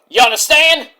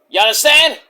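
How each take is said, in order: No difference in how they are said.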